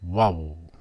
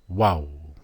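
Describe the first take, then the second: First: Vowel said as wal, a w sound, one syllable. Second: Vowel said as waul, a w sound, slightly rounder. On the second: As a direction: repeat Vowel as waul for the class. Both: Shown as a demonstration. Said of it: "That's how it's pronounced".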